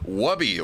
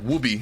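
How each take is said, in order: First: The name is said the usual non-European way. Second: The name is said the way Europeans say it.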